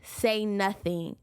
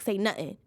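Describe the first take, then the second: First: It is said in the speaker's own plain accent. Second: It is said imitating the Top Boy characters' London accent.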